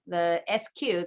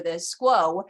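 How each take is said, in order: First: Letters "S Q" spelled out one by one; the forensics abbreviation "S Q" said as letters. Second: "squo" blended into one quick word. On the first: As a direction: say "S Q" as two separate letters. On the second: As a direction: say "squo" as a single syllable, skwoh. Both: Shown as a demonstration. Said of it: "If you're in forensics".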